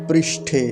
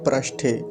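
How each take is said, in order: First: The first syllable has a clear ri sound. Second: The first syllable lacks the ri sound. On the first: The speaker calls it right. "ऐसे है रिकार" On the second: The speaker calls it wrong. "ना कि"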